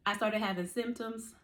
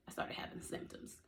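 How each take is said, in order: First: Said in the usual way. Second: Whispered, hushed for emphasis. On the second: Shown as a demonstration. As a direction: breathe it out as a secret whisper. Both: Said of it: "And when I say".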